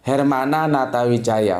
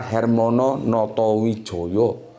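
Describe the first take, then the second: First: The name is said with Sundanese 'a' vowels. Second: The name is said with Javanese 'o' vowels.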